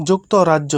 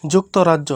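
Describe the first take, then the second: No difference in how they are said.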